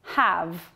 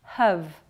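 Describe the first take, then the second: First: "have" with a full open vowel; strong form. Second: "have" reduced to /həv/ with a schwa; weak form. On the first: Teacher models the strong form of "have". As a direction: say "have" clearly with full stress. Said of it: "pronounced in the strong form". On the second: Teacher models the weak form of "have". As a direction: say "have" short and unstressed, /həv/. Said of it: "pronounced in weak form". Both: Shown as a demonstration.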